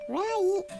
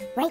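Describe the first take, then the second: First: The final T is fully released. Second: The final T is cut off, unreleased. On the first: The speaker calls it wrong. "Right じゃなくて" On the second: The speaker calls it right. "詰まったような日本語で言うちっちゃいツーみたいな感じ"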